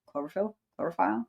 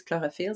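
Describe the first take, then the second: First: Chlorophyll said the English way, KLOR-uh-fil with the stress up front; English pronunciation. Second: Chlorophyll said the French way, kloh-roh-FEEL with the stress on the end; French pronunciation. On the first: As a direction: say chlorophyll in plain English, a bit quieter. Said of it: "So I guess in English". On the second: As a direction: say chlorophyll as a French speaker would, light and even. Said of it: "that's how we say it in English. In French". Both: Shown as a demonstration.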